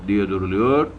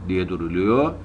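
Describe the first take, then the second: The two takes are said the same way.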